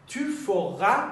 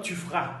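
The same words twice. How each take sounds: First: "Tu feras" rising, "feras" as fe-ra; full pronunciation. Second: "tu feras" falling, "feras" as fra; contracted pronunciation. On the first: Teacher offers the first of two forms, "feras" fully voiced as fe-ra. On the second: Teacher offers the alternative form, "feras" run together as fra. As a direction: drop the middle vowel of "feras". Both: Shown as a demonstration. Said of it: "به این صورت".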